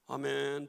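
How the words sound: It is said weakly, as if unwilling.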